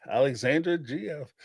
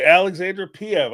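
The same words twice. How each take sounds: First: Says "G F" instead of "P F"; "Alexandra G F" with G; wrong initials. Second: "Alexandra P F" said with P, a touch louder; corrected initials. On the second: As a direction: fix it to "P F". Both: Real, not acted. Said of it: "I keep saying G F".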